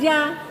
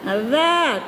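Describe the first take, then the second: First: It starts with a hard j sound. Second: It starts with a soft z-like sound. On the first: The speaker calls it wrong. "jangan baca ja" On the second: The speaker calls it right. "lembutkan aja baca za, di ujung lidah"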